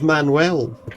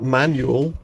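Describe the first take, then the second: First: The name is said with a Spanish pronunciation. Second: The name is said with an English pronunciation. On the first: The speaker calls it right. "His name's Manuel, ... He's from Cuba" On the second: The speaker calls it wrong. "not Manuel"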